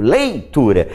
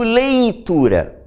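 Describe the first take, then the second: First: Leitura with a clear ei diphthong; correct pronunciation. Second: Leitura with the ei flattened to a plain e; wrong pronunciation demo. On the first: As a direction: say leitura with a full lei glide. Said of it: "eu digo leitura". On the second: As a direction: say leitura as letura, no i glide. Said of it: "eu não digo leitura". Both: Shown as a demonstration.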